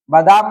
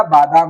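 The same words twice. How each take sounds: First: बादाम with short first a, "badaam"; wrong form. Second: बादाम with long "baa"; correct form. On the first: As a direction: clip the "ba" of बादाम. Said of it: "बादाम नहीं होगा". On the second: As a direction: stretch the first vowel of बादाम. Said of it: "बादाम होगा". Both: Shown as a demonstration.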